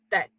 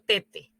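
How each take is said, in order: First: The final vowel is silent. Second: The final vowel is sounded. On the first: The speaker calls it right. "No pronuncio la E" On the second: The speaker calls it wrong. "yo no digo tete"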